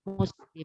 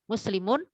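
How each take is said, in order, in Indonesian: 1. Kata ini berhenti pada konsonan terakhirnya. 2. Kata ini berakhir dengan vokal dan n.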